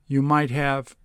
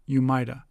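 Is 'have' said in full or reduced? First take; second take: full; reduced. First: The word have is said in full. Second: The word have is reduced to a short vowel.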